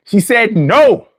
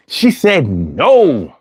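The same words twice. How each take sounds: First: Slow, drawn-out she said no; no stretched with a rising finish; emphatic no. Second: Low and deliberate, leaning on she; low, slow she said no. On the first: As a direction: land hard on no, slowly. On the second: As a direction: stress on she, falling tune. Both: Shown as a demonstration.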